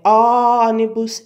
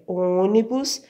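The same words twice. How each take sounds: First: "ônibus" with a long, loud open "ó"; wrong open O. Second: "ônibus" with a closed, rounded "ô". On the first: Teacher shows how it is not said, open "ó" in "ônibus". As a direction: open the first vowel wide, ÓÓ-nibus for "ônibus". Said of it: "por o ó estar fechado, não é". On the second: Teacher corrects the open vowel, closed "ô" in "ônibus". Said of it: "por o ó estar fechado". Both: Shown as a demonstration.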